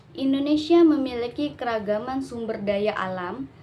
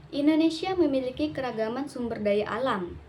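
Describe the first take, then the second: No difference in how they are said.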